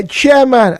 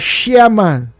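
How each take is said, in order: First: Said in the usual way. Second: "chairman" opened with SH, like "shairman"; imitated Yoruba pronunciation, "chairman" with SH. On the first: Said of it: "chairman as chairman". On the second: Shown as a demonstration. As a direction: soften the CH of "chairman" into SH. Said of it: "our Yoruba friends".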